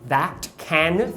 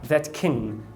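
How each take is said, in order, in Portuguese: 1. As duas palavras têm uma vogal a aberta e plena. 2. As duas palavras têm uma vogal reduzida, o schwa. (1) "são pronunciadas com ash" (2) "pronunciar o schwazinho"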